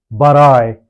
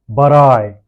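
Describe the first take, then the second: Both takes have the same delivery.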